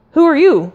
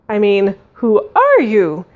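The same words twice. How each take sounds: First: High, forceful demand; menacing. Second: Sunny, slowed, singsong question; cheerful lilt. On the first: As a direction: fire off the question too harshly. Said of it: "that came out more menacing". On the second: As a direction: overdo the friendliness with a lilting "are". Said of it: "adding a sunnyish, cheerful lilt". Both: A narrator's reading.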